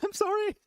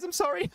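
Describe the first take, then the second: First: Giggled, much higher sorry; sheepish caster laughing it off; laughing apology. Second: Apology. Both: Real, not acted. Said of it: "I know there's no sound".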